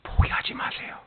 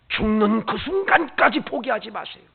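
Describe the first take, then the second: First: Whisper. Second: Said in the usual way. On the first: Acted. Preacher whispering 포기하지 마세요 to the congregation. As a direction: breathe 포기하지 마세요 as a hush. Whispered then repeated aloud.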